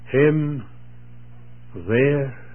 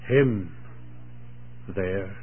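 First: The second word carries the emphasis. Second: The first word carries the emphasis. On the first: "or second word" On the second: "place the emphasis on the first"

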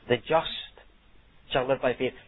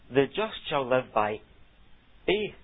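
First: The stress falls on the word just. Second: The stress falls on the word faith. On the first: The righteous are contrasted with the wicked. "the emphasis is on the just" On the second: Faith is contrasted with works of the law. "the emphasis is on the word faith"

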